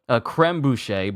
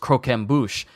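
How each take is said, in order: First: It begins with a 'cray' sound, like creme. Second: It begins with a 'crock' sound, like croque. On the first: The speaker calls it wrong. "I was calling something uh, croque, uh, a creme bouche" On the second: The speaker calls it right. "but it was croquem bouche"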